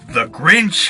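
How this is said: It is read in a low, deep voice. The speaker calls it right. "I'm just gonna read it in like a deep voice"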